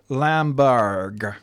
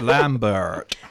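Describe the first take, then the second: First: The name ends with a G sound. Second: The name ends with a T sound. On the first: The speaker calls it right. "With a G" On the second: The speaker calls it wrong. "not a T"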